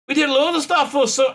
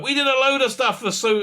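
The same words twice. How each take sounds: First: A hint of John's Liverpool voice that slides into her own; failed John impression. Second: Said in the usual way. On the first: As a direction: try his voice and miss. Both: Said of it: "I can't do his voice".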